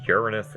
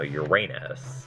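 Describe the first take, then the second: First: The stress is not on the middle syllable. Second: The stress is on the middle syllable. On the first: The speaker calls it right. "most scientists say Uranus anyway" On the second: The speaker calls it wrong. "which puts the emphasis on the middle A"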